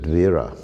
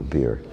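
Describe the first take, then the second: First: It starts with v and ends in a vowel. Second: It starts with b and ends without a vowel. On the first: This is the original form of the name. "the word in Sanskrit vira" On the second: This is the regional form of the name. "it's a Bengali pronunciation"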